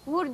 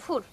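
First: The word begins with a voiced v sound. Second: The word begins with a voiceless f sound.

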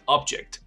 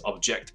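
First: The stress is on the first syllable. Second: The stress is on the second syllable. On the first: It means a physical thing. "物体发音是object" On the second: It means to protest. "他们抗议动词是object"

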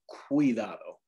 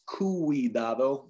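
First: The u is a short w-like glide. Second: The u is a separate vowel syllable. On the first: The speaker calls it right. "it can produce kind of like our W sound" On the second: The speaker calls it wrong. "this word would not be pronounced cuidado"

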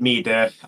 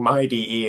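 First: The name is said as one two-syllable word. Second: The name is said as 'my' plus letters. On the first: It follows the Japanese pronunciation more closely. The speaker calls it wrong. "I say Mida" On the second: It is meant as somebody's own desktop environment. The speaker calls it right. "I like that pronunciation better"

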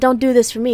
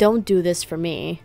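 First: The line is said in a harsh, mean tone. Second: The line is said in a nice, gentle tone. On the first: The speaker calls it right. "in a much meaner way" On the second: The speaker calls it wrong. "I'm making him sound nice"

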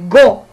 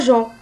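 First: The syllable begins with a hard g sound. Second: The syllable begins with a soft zh sound. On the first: The speaker calls it right. "c'est GO" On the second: The speaker calls it wrong. "C'est pas JO"

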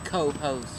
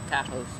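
First: The first syllable has a full, stressed 'oh' vowel. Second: The first syllable has a weak, reduced 'uh' vowel. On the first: The speaker calls it right. "You got to put the emphasis on the co" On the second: The speaker calls it wrong. "You don't say ca-host"

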